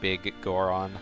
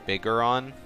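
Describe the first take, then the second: First: The name is split into two words, g repeated. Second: The name runs together as one smooth word. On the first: "I always say it like it's two separate words" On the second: "a lot of people say Bigoron"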